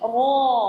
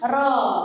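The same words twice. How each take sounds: First: The r is said thick and heavy. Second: The r is said thin and light. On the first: The speaker calls it right. "tapi ro... harus tebal" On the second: The speaker calls it wrong. "itu jangan ro"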